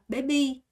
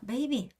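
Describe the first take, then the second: First: It is said with Vietnamese-style sounds. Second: It is said with ordinary English sounds. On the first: "베트남 사람은 진짜 베비를 어떻게 읽는 줄 알아요? 메베이" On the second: "baby 이렇게 하잖아요"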